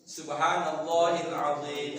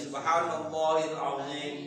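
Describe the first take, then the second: No difference in how they are said.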